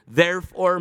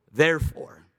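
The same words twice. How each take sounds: First: "Therefore" read out with a lift and more volume; scripture-reading "Therefore"; proclaimed therefore. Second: Said in the usual way. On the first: Shown as a demonstration. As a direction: open the verse with a ringing "Therefore". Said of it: "he now says to you". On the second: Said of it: "it's appropriate to add this in".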